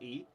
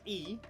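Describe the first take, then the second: First: The letter is named with an English vowel. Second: The letter is named with a Dutch vowel. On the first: "English people pronounce this as E" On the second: "this we pronounce as E"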